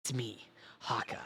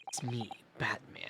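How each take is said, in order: First: Gruff whispered Solid Snake growl; low secret-agent rasp, barely voiced. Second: Low gravelly Batman whisper; hushed dark-hero growl. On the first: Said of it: "was that a good snake voice". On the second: Pretend. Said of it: "That's the wrong voice".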